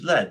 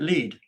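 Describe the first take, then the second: First: The vowel is a short 'eh' sound. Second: The vowel is a long 'ee' sound. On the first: It names the metal. The speaker calls it right. "we know it's lead ... it should be spelled L E D" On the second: It is read the way the spelling looks. The speaker calls it wrong. "It looks more like lead"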